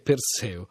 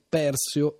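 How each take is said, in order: First: The stress follows the Latin-style placement. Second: The stress follows the Greek-style placement. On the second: "la pronuncia alla greca"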